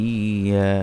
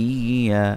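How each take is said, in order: No difference in how they are said.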